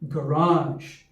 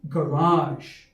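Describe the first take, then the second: Both takes have the same delivery.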